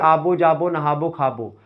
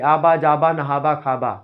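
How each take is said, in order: First: The verbs end in a rounded -bo sound. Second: The verbs end in a short -ba sound. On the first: This is how Gonda speakers say it. "Gonda वाले बोलेंगे" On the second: This is how Faizabad speakers say it. "Faizabad वाले आबा बोलेंगे"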